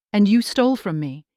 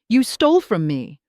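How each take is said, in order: First: "you" stressed, not "stole". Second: "stole" stressed, falling. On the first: Mother throwing the blame back at her daughter, stress on "you". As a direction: hit "you" hard, turning it back on her. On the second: Mother accusing her daughter of theft, stress on "stole". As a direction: lean into "stole", not "You". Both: Acted.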